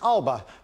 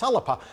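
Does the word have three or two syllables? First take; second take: two; three. First: It is said with two syllables, Alba. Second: It is said with three syllables, Alapa. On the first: This is the English pronunciation. "even if I'm speaking in English, then it's Alba" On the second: This is the Gaelic pronunciation. "If I'm speaking in Gaelic, then it's Alapa"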